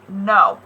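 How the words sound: It is said with a low pitch.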